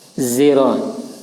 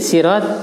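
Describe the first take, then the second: First: It begins with a sound between s and z. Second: It begins with a plain, light s sound. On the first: "antara shad dan zai" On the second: "dengan sin ya sirat ya"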